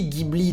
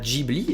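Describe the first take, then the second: First: It begins with a hard G sound. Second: It begins with a soft G sound. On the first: This is the original pronunciation. The speaker calls it right. "comparée à la prononciation originale du mot" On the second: This is the mistaken Japanese transcription. The speaker calls it wrong. "une erreur est commise"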